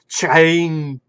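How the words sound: The word begins with a hard ch sound. The speaker calls it wrong. "He kept saying it chain"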